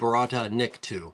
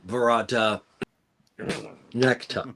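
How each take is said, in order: First: The last word sounds like nikto. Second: The last word sounds like necktie. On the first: The speaker calls it right. "the right pronunciation" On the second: The speaker calls it wrong. "everybody goes"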